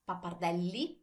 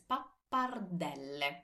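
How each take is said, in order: First: The word ends in an 'ee' vowel. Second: The word ends in an 'eh' vowel. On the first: The speaker calls it wrong. "It's not pappardelli" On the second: The speaker calls it right. "because we always pronounce all our vowels"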